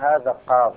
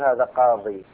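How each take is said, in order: First: The last word ends on the consonant 'd'. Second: The last word ends with a long 'ee' vowel. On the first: The speaker calls it right. "تقف عليه بالضاد بدون إرجاع الياء" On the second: The speaker calls it wrong. "ما تقول هذا قاضي"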